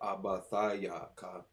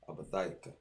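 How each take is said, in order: First: The syllables are broken apart, sounding choppy. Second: The syllables flow together, sounding smooth. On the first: The speaker calls it wrong. "so it doesn't sound so kind of choppy" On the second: The speaker calls it right. "Just smooth it out"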